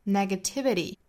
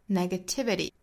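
First: The final t is a quick flap. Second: The same.

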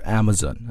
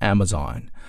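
First: The last syllable is a reduced 'zen' sound. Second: The last syllable is a full 'zon' sound. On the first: "英音当中呢一般会把后面这个 Z-O-N 这个地方读成 Zen" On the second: "美国人读的时候呢，往往他会把后面那个 Z-O-N 读成 Zon"

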